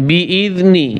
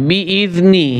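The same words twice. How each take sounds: The two takes are said the same way.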